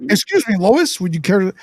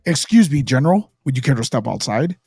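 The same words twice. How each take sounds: First: Lightly goofy, polite voice; a hint of bumbling politeness; Clark Kent. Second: Low, commanding hero voice; Superman. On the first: Clark Kent politely addressing Lois, lightly goofy. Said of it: "he's goofy". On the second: Retold or imitated. Superman challenging General Zod to a fight, low heroic voice. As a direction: drop low for a polite challenge. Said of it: "he's gonna fight General Zod, he's like".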